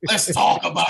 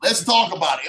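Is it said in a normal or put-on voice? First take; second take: put-on; normal. First: It is said in a put-on Croc voice. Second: It is said in his normal voice.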